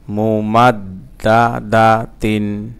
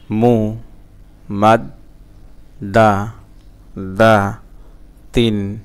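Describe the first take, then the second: First: "মুমাদ্দাদাতিন" slow and connected, doubled d held; joined reading pronunciation. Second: "মু, মাদ, দা, দা, তিন" as isolated syllables with gaps; broken syllable-by-syllable. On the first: Teacher reading the word whole for learners, slowly joined. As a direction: link the syllables of "মুমাদ্দাদাতিন" in measured flow. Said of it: "reading উচ্চারণ". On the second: Teacher breaking a word for learners, one syllable at a time. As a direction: sound out "মু, মাদ, দা, দা, তিন" piece by piece. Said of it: "ভাঙা ভাঙা". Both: Shown as a demonstration.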